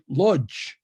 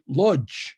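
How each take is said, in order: First: The name is said with a German pronunciation. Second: The name is said with a German pronunciation.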